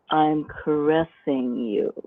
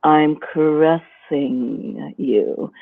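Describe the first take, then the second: First: Softer, slow caressing line; slowly paced, softer seduction. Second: Slow, lingering seductive line; a lightly drawn-out seductive purr; caressing seduction. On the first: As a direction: pace each word like a stroke. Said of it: "I might even pace it like". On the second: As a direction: stretch it out like a caress. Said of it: "the seduction voice is more of a". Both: Shown as a demonstration.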